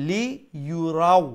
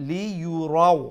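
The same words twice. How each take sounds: Both takes have the same delivery.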